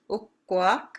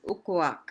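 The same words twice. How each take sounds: First: Ukwak with a long held K, split uk-kwak, rising; double K. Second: Ukwak with one short K, falling, no break; single K. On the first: Teacher distinguishing door from in-law term, long double K. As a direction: hold the K in Ukwak, then release it. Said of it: "with a two K's is door". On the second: Teacher distinguishing in-law term from door, short single K. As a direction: run Ukwak together with a quick single K. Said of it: "Ukwak with one K is Ukwak". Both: Shown as a demonstration.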